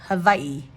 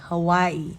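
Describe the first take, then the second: First: The middle consonant sounds like a V. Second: The middle consonant sounds like a W. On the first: This is how local people say it. "The locals in Hawaii actually pronounce the W as a V" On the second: This is how most English speakers say it. "in English, most people call it Hawaii"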